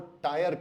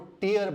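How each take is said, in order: First: The word sounds like tire. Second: The word sounds like teer. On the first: The speaker calls it wrong. "तो ये भी गलत है" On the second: The speaker calls it right. "इसको टीयर बोला जाता है"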